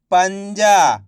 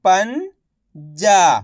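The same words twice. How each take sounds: First: "पंजा" blended into one word; syllables joined. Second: "पंजा" split slowly, pause before जा; syllable by syllable. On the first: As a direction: say "पंजा" whole, without the pause. ("पंजा" मिलाकर एक शब्द में) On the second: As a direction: sound out "पंजा" as पन, then जा. ("पंजा" को तोड़कर, धीरे-धीरे) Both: Shown as a demonstration. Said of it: "एक एक अक्षर का उच्चारण करके".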